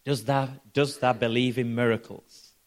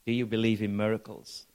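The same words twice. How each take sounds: First: Lightly put-on Yorkshire accent; a hint of broad Yorkshire speech. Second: Said in the usual way. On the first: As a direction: quote him in mild Yorkshire dialect. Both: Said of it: "in his Yorkshire accent and says".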